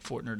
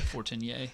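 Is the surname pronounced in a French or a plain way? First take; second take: plain; French. First: The surname is said in a plain, non-French way. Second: The surname is said in a French way.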